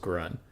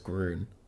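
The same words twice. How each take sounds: First: The vowel is a plain 'uh' sound. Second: The vowel is a rounded German 'ü' sound. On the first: "He said G R space U H space N" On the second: "if it is the German word for green, then it's Grun"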